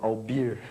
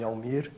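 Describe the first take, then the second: First: The middle consonant sounds like a b. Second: The middle consonant is a clear m sound. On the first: A blocked nose distorts the name. The speaker calls it wrong. "eu falo Albir" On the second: This is how the name should sound. The speaker calls it right. "vou falar o meu nome Almir"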